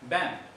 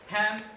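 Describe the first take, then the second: First: The word begins with a b sound. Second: The word begins with a p sound. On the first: The speaker calls it wrong. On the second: The speaker calls it right.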